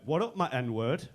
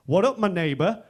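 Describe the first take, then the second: First: Slow, drawn-out buddy greeting; imitated friends' greeting. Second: Loud, rising buddy greeting; bold mock greeting. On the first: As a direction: stretch the greeting out, rising at the end. Friends greet each other. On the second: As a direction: belt out the greeting like a daring mate. He returns greeting, bolder.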